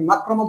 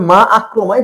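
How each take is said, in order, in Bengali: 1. দুটি শব্দ ক্যাচ ছাড়াই একসাথে মিশে যায়। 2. দুটি শব্দের মাঝে একটি গ্লোটাল ক্যাচ আছে। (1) "আপনি মাক্রমা পড়তে পারবেন না" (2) "তো এই জন্য মা আক্রমায় পড়তে হবে"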